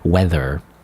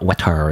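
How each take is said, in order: First: The middle consonant is a th sound. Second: The middle consonant is a t sound. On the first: The speaker calls it right. "it's weather. the sound" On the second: The speaker calls it wrong. "It's not wetter, not ter sound"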